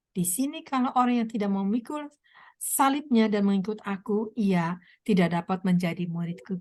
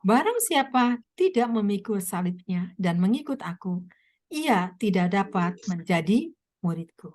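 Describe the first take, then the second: First: Said in the usual way. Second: Solemn scripture reading. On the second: Acted. Preacher reading Jesus' words.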